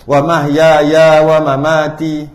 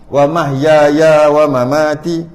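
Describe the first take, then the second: No difference in how they are said.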